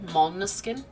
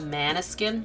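First: The first vowel is an open 'ah' sound. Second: The first vowel is a flat 'a' sound. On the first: "in German we pronounce A like Americans would say ah" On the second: "Instead of maniskin"

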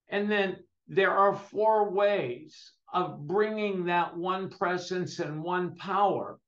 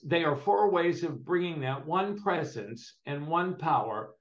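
First: It is said more slowly. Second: It is said at a normal pace.

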